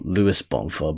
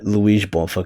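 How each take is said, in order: First: The name is said without Portuguese pronunciation. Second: The name is said with Portuguese pronunciation. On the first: "technically Luís Bonfa or Luis Bonfa" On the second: "I say like [name] because it's like the Portuguese pronunciation"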